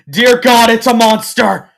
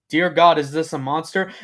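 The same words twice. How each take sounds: First: High, very loud panicked shout; panicked outburst. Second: Alarmed question, loud on the opening words; racing panicked thoughts. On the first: Filly decides the stranger is a monster, screaming panic. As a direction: shriek it in sudden horror. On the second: Filly wonders about the stranger in the cave, alarmed. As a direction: panic starting to rise, not yet screamed. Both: A narrator's reading. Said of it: "her mind racing with".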